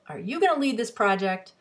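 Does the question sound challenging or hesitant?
challenging. The question sounds confrontational and challenging. The listener is being challenged about taking the lead. "the person who's being challenged"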